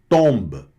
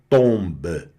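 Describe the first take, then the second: First: The final vowel is only faintly heard. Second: The final vowel is pronounced fully. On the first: The speaker calls it right. "ele puxa o E, fica discretinho ali no final" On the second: The speaker calls it wrong. "Você não vai falar tomba"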